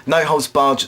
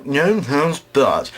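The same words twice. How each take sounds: First: Said in the usual way. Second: "no holds barred" slurred and drawn out; garbled words. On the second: Real, not acted. Comedian stumbles over the wrestling match name, "no holds barred" garbled. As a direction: stumble slowly through "no holds barred", blurring the consonants. Garbled take, then said again properly.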